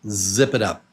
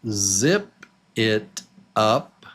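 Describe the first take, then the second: First: The words run together as one. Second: Each word is said separately.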